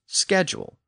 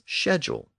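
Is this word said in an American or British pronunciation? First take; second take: American; British. First: It is said with an American pronunciation. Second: It is said with a British pronunciation. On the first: "but American English uses schedule" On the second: "English dialects in Britain and much of the Commonwealth have tended to pronounce the word as"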